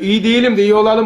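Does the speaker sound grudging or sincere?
grudging. It is said in a grudging, half-hearted tone. The speaker does not really believe it. The speaker calls it wrong. "böyle uslup değil"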